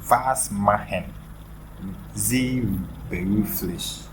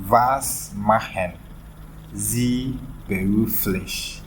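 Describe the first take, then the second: The two takes are said the same way.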